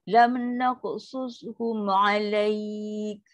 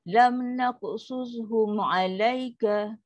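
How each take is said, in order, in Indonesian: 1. Berakhir pada k, tanpa vokal di akhir. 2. Berakhir dengan vokal a pendek. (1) "kalau berhenti" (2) "Kalau kita baca sambung"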